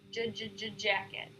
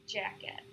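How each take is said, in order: First: Repeated j then jacket; tense stutter. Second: Jacket with less tension; relaxed. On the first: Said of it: "repeat the word after the stutter". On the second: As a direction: say jacket easy. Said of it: "less tension". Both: Shown as a demonstration.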